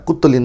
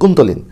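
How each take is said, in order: First: The middle consonant is a doubled t sound. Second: The middle consonant is an n plus t. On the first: The speaker calls it wrong. "Sorry উচ্চারণটা কুত্তলিন না" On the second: The speaker calls it right. "দুঃখিত, কুন্তলিন"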